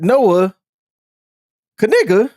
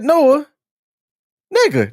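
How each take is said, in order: First: The K at the surname's start is pronounced. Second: The K at the surname's start is silent.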